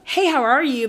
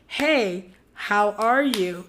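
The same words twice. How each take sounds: First: The greeting sounds quick and offhand. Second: The greeting sounds warm and genuinely concerned. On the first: A routine greeting without real interest. The speaker calls it wrong. "Like just abruptly" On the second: A sincere check-in on how someone feels. The speaker calls it right. "actually see like"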